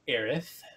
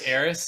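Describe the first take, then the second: First: The name ends with a lisped th sound. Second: The name ends with a plain hissing s sound. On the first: This is the newer version of the name. The speaker calls it wrong. "it sounds like you're saying her name with a lisp" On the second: This is the older, familiar version of the name. The speaker calls it right. "I've only known her as Eris"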